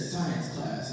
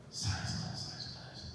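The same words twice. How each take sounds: First: Said in the usual way. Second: Very soft, repeated to himself; baffled muttering. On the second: Retold or imitated. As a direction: puzzle over the words under your breath. Puzzles over the quoted words.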